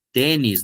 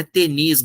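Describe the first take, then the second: First: Tênis stressed on the first syllable, TÊ-nis; Tênis stressed early, paroxytone; correct stress. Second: Tenis stressed on the last syllable, te-NIS; wrong stress. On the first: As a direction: say Tênis with a closed ê, stress up front. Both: Shown as a demonstration. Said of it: "não é tenis".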